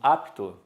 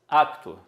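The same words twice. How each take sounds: First: The p goes straight into the t. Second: An extra vowel is heard between p and t. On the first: This is the standard form. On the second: This is the colloquial everyday form.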